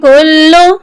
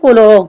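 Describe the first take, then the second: First: The l sound is doubled and held. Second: The l sound is single and short. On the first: The speaker calls it right. "इसकी सही अदायगी है कुल्लु" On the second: The speaker calls it wrong. "अक्सर लोग पढ़ते हैं कुलो, जो कि गलत है"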